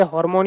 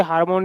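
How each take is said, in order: First: हार्मोन with "o" in the first syllable, "HOR-mon"; correct pronunciation. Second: हार्मोन with an open "aa", "HAAR-mon"; common mispronunciation. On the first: Teacher giving students the proper form, हार्मोन as "hor-mon". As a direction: make हार्मोन start like "hor". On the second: Teacher quoting the common mistake, हार्मोन as "haar-mon". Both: Shown as a demonstration. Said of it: "इसका pronunciation ऐसे ही किया जाता है".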